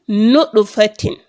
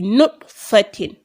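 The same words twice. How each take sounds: First: The t has a short echoing bounce before continuing. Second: The t is joined straight on with no echo. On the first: The speaker calls it right. "I will make a certain echo on it" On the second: The speaker calls it wrong. "I've tied the to immediately"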